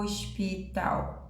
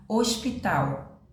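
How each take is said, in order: First: "hospital" drawn out slowly, sound by sound, silent H; sílabas alongadas. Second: Said in the usual way. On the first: Shown as a demonstration. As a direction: stretch "hospital" syllable by syllable, softly. ("hospital" bem devagar, som por som) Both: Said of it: "esse som aqui da letra H não sai".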